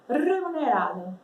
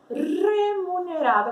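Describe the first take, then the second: First: The word is said quickly. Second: The word is said at a normal speed.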